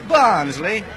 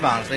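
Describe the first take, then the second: First: It is said in a mocking, condescending tone. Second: It is said plainly, in a neutral tone.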